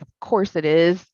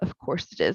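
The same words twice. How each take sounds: First: It sounds angry and indignant. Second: It sounds sad and resigned.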